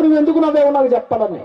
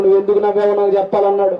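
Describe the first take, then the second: First: Higher, pressing demand; demanding king. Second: Said in the usual way. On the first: Retold or imitated. King grills the minister on why he laughed, pressing demand. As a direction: corner him, insist on an answer. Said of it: "రాజుగారు నిలదీసి అడుగుతున్నారు".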